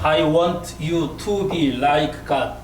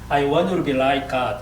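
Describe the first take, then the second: First: The sentence is read slowly, word by word. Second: The sentence is read quickly, words run together. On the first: "한국 사람이면 I want you to be like God. 뭐 이렇게 읽겠지만" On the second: "미국 사람이면 굉장히 빨리 읽을 수 있습니다"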